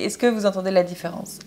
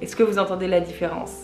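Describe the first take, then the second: First: The voice sounds close and intimate, recorded up close. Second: The voice sounds farther away, with more room sound. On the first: "Là, je l'ai" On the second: "je vais vous montrer en l'enlevant"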